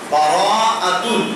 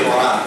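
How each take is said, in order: First: The word has long vowels across four syllables. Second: The word is clipped to two short syllables. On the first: The speaker calls it right. "উচ্চারণ হবে বারাআ" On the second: The speaker calls it wrong. "আমাদের দেশের মানুষ এভাবেই শব্দটা উচ্চারণ করে"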